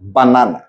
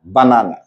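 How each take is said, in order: The two takes are said the same way.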